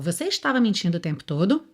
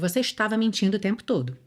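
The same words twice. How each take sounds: First: It is said as a question, rising. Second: It is said as an accusing statement, falling.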